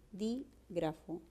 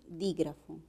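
First: "dígrafo" slowly split, pausing after dí; quiet, drawn-out teacher's syllable demo of "dígrafo"; syllabified. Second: Said in the usual way. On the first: Shown as a demonstration. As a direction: softly break "dígrafo" into dí, grafo. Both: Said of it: "la base es un buen silabeo".

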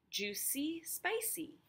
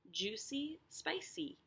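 First: "Juicy, spicy" climbing high, playful; sing-song rhyme. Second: "Juicy, spicy" rising, a touch softer; gentle bounce up on "spicy"; softer sing-song. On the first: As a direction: bounce up on "spicy". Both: Shown as a demonstration. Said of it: "So C is that last syllable".

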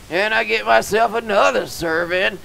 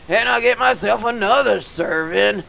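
Both takes have the same delivery.

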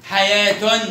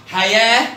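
First: حياة said as "hayatun"; sounded taa. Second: Loud حياة as "hayah"; pausal haa. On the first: Teacher shows the joined form, حياة ending in -tun. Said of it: "وتاء مرة". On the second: Teacher shows the pausal form, حياة ending in -ah. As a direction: end حياة on h, no t. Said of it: "نطقت هاء مرة". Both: Shown as a demonstration.

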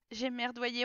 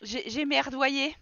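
First: Said in the usual way. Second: Slow, stretched admission; drawn-out. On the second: Pretend. Player voicing her Sim's blunder, slow and drawn out. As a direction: drag each word out sheepishly. Repeats the phrase twice.

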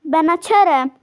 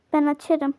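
First: Calling out Ben açarım louder the second time. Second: Said in the usual way. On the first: Real, not acted. Calling to the house that she will answer the door, louder. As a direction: raise your voice on Ben açarım to be heard.

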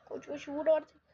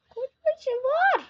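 First: Said in the usual way. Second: Drawn-out yell. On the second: Real, not acted. Urging the battle ram on.

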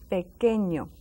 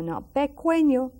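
First: Pequeño with a hard K and a silent U, "pe-KE-ño"; pequeño the right way, no W sound; proper Spanish pequeño; correct pequeño. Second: Pequeño with a spoken U, "pe-KWE-ño"; pequeño said wrongly as pekweño; mock wrong pequeño. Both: Shown as a demonstration. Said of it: "not pequeño, but pequeño".

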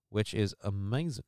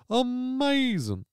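First: Said in the usual way. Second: Amazing sung out high, slow and falling; silly drawn-out amazing. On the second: Pretend. Host mocking his own word in a goofy voice.

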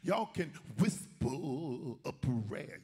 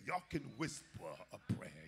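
First: "whisper" stretched out slowly, still fully voiced; drawn-out mocking whisper-talk. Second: Softer, lowered voice on "whisper a prayer"; hushed mock prayer. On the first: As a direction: draw out "whisper" in mock instruction. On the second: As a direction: drop down as if hinting at a whisper.

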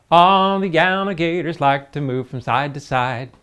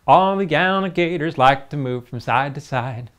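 The two takes are said the same way.

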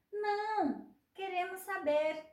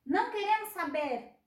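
First: Não high, pause, queremos saber; Não pitched up, then queremos saber; pause after Não. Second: Não queremos saber in one phrase, Não stressed; loud Não queremos saber; no pause. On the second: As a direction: refuse in one breath. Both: Shown as a demonstration. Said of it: "poder de mudar uma opinião".

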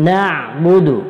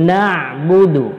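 Both takes have the same delivery.

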